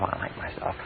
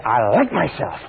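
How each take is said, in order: First: Barely audible whisper; saying it only to yourself under the breath. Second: Said in the usual way. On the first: Shown as a demonstration. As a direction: breathe it silently as inner talk. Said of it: "If you say to yourself". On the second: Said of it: "but if you say".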